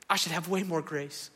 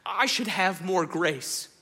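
First: Said in the usual way. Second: I should have more grace, spoken slowly and a little higher; slow stressed confession. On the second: Shown as a demonstration.

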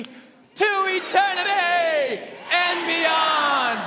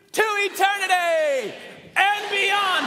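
First: Very slow, higher, louder stretched shout; long rally shout. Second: Higher, louder, slow shout of the catchphrase; rally shout. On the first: Pastor leading standing congregation in long shout. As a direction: drag it out at full volume. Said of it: "One, two, three". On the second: Pastor leading congregation in shouted catchphrase. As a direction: lead the whole church in a roar. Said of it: "are you ready". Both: Real, not acted.

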